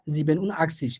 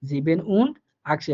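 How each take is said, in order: First: Said in the usual way. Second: 1 slow German demo. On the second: Shown as a demonstration. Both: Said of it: "ওই সংখ্যাটা আপনি বলবেন।".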